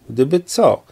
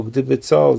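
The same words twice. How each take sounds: First: Pitched up, challenging question; needling, combative echo; provocative. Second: Said in the usual way. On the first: A narrator's reading. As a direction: throw the question back as a challenge. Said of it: "zapytała zaczepnie".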